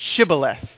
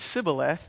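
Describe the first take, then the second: First: The word begins with a sh sound. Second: The word begins with a plain s sound. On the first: The speaker is a true Gileadite. The speaker calls it right. "say this word" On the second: The speaker is an Ephraimite, not a Gileadite. The speaker calls it wrong. "they couldn't pronounce the H sound, and so they would just say"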